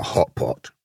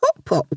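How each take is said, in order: First: Low, resigned wolf; wolf's voice. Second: Tiny, very high lamb squeak; little lamb's voice. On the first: Wolf telling the lamb what she is, low-voiced. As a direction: drop the name low in pitch. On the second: Lamb repeating her name to the wolf, high and smiling. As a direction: pipe it up high with a smile. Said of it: "said the little lamb with a smile". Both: A narrator's reading.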